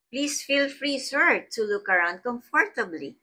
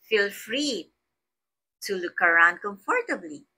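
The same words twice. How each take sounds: First: Higher, friendly "Please feel free, sir"; teacher showing a polite, pleased invitation to a guest. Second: Said in the usual way. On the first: Shown as a demonstration. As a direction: lift "Please" up high and invite warmly. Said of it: "You are expressing pleasure". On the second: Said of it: "And another".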